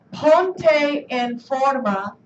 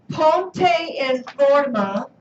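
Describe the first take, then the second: First: Ponte en forma repeated slowly and evenly. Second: Ponte en forma spoken very slowly, each word clear; slow model phrase. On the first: Teacher repeating ponte en forma slowly for students. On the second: Teacher modelling ponte en forma slowly for students. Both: Shown as a demonstration.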